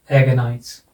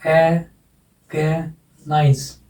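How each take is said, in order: First: Said in the usual way. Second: "ए, गे, nice" split into three separate syllables. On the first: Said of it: "तो यहाँ लग जाएगा". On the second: Shown as a demonstration. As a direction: break "ए, गे, nice" apart with clear pauses. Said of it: "तीन syllable है".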